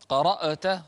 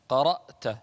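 First: The hamza is released with an added echoing bounce. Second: The hamza is closed cleanly without any bounce. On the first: The speaker calls it wrong. "قرأت خطأ" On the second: The speaker calls it right. "لا تقلقل الهمزة"

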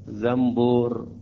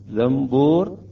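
First: An m sound comes before the b. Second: An m sound comes before the b.

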